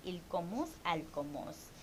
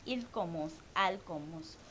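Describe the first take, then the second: No difference in how they are said.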